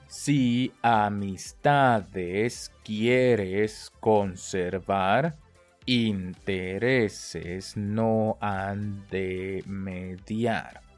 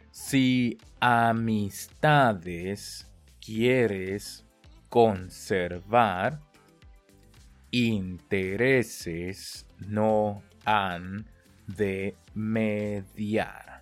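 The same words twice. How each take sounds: First: The phrase is spoken a little faster. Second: The phrase is spoken very slowly and carefully. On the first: "再快一点" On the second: "跟着我念"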